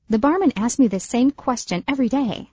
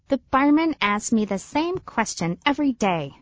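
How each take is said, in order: First: The sentence is spoken at a fast speed. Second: The sentence is spoken at a normal speed. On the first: "Fast version" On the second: "Normal speed"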